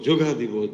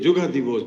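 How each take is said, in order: No difference in how they are said.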